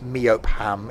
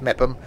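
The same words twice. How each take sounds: First: Meopham sounded out as MEE-op-ham; spelling pronunciation. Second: Mepham as two syllables, MEP-um; guessed pronunciation. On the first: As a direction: give Meopham every written syllable, MEE-op-ham. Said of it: "isn't gonna be pronounced Meopham". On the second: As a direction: reduce the end of Mepham to -um. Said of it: "I'm guessing it's pronounced". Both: Shown as a demonstration.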